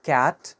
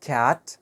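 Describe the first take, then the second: The two takes are said the same way.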